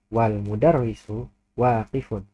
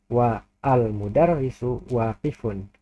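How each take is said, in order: First: The vowel of al is dropped, joining wal. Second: The vowel of al is pronounced separately after wa. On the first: The speaker calls it right. "alifnya tidak dibaca" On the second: The speaker calls it wrong.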